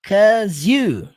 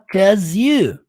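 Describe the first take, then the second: Both takes have the same delivery.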